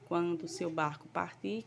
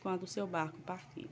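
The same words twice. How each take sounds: First: It ends rising, as a question. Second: It ends falling, as a statement.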